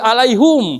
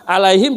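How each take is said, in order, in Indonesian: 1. Suku kata terakhir diucapkan dengan vokal u. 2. Suku kata terakhir diucapkan dengan vokal i. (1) "alaihim jadi alaihum" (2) "alaihim jadi alaihum"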